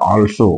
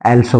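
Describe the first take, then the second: First: The word begins with a rounded 'aw' vowel. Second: The word begins with a flat 'ae' vowel. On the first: The speaker calls it right. "तर अ म्हणायचं" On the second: The speaker calls it wrong. "ॲल्सो म्हणतोय, तसं नाही"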